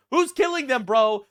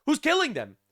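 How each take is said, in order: First: Louder, higher outraged demand; exasperated shout. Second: Said in the usual way. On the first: Real, not acted. Ranting at the UN over the killings, exasperated shout. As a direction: yell the question in disbelief.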